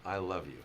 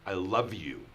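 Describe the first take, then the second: First: It is said in a calm, positive, neutral tone. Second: It is said in a harsh, angry tone. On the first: "positive, clear, neutral way" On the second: "in an angry way"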